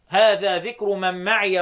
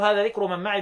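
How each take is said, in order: First: The ya of ma'i is pronounced with a short a. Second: The ya of ma'i is pronounced without a vowel. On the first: "مين اللي بيفتح معي؟ حفص" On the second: "بالاسكان"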